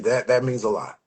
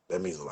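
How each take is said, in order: First: Said in the usual way. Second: Quiet. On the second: Real, not acted.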